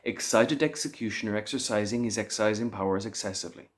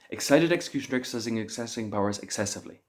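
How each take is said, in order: First: It is said at a moderately fast pace. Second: It is said as fast as possible.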